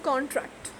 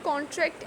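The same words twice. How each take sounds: First: The stress is on the first syllable. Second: The stress is on the second syllable. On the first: It is used as a noun. "the stress is on the C O N, the first syllable" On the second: It is used as a verb. "it is verb, so here the stress is on the second syllable"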